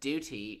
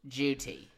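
First: It starts with a plain D sound. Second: It starts with a J sound.

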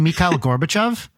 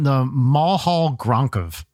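First: The name is said as Mikhail Gorbachev. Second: The name is garbled as Mulhall Gronkov. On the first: The name as it is normally said. The speaker calls it right. "do you mean Mikhail Gorbachev?" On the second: A child mispronounced the name. The speaker calls it wrong. "what was the other one?"

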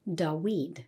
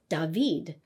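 First: The middle consonant is a W sound. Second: The middle consonant is a V sound. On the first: This is the likely ancient Hebrew pronunciation. "But in ancient Hebrew, it probably sounded more like Dawid" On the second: This is the modern Hebrew pronunciation. "in modern Hebrew, the name of David, which has a V sound"

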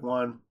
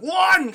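First: It is said calmly and quietly. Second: It is said angrily and forcefully.

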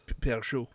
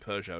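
First: The name is said with a French pronunciation. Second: The name is said with an anglicized pronunciation. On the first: "it's French, so it's Peugeot. We don't say that" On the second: "We say Peugeot and Renault because we anglicize it a bit"

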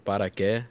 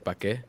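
First: The first word is said in full, two syllables. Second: The first word is cut to one syllable. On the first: The speaker calls it right. "instead of saying para que" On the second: The speaker calls it wrong. "some people say pa que"

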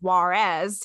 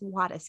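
First: It is said with an English-style pronunciation. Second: It is said with a Spanish-style pronunciation. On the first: The speaker calls it wrong. "A lot of Americans like to pronounce it Juarez" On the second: The speaker calls it right. "it's Juarez, guys"

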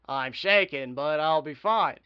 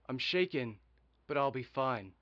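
First: It is said in an altered character voice. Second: It is said in the speaker's ordinary voice. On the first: The speaker calls it right. "I changed my voice" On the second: The speaker calls it wrong. "I'm doing my regular voice"

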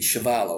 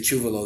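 First: The name is said the Canadian way. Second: The name is said the family's way.

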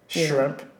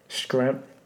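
First: The word begins with an sh sound. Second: The word begins with an sk sound. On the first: The speaker calls it right. "It's shrimp" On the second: The speaker calls it wrong. "How do people mispronounce it"

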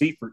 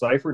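First: The name is said with an American pronunciation. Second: The name is said with a German pronunciation. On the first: This is how it is said over here. "technically if we're over here, it's" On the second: This is how it is said in Germany. "if we're in Germany, it is pronounced"

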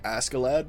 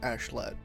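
First: The name is said with an 'sk' sound. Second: The name is said with a 'sh' sound. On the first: This follows how the name is written. "It's spelled like Askeladd" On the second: This is how the show says the name. "but they pronounce it like Ashlad"

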